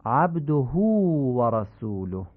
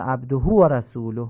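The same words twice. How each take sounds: First: «عبده» said abduhū with a long drawn hu, slow; proper ishba shown slowly; lengthened hu. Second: «عبده» said abdo with the hu cut short; clipped final vowel; missing ishba. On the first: Teacher models the required lengthening for listeners. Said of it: "باید اشباع کرد". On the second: Teacher imitates people who skip the lengthening. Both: Shown as a demonstration.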